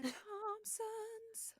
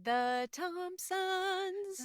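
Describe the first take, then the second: First: Higher, softer and stretched; high slow echo. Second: Slow stretched name; drawn-out quote. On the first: Echoing her cohost, high and stretched out. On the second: Cohosts savoring the name, stretched out slowly. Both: Retold or imitated.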